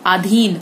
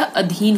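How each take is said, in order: First: अधीन begun with long "aa"; mispronounced vowel. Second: Said in the usual way. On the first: Shown as a demonstration. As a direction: say अधीन as "aadheen". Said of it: "अधीन नहीं होता". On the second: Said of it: "अधीन होता है".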